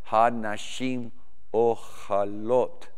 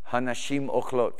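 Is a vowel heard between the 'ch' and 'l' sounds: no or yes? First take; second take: yes; no. First: A vowel is sounded between 'ch' and 'l'. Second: No vowel is sounded between 'ch' and 'l'. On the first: The speaker calls it wrong. "or forgive me" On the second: The speaker calls it right. "the syllable's not sounded"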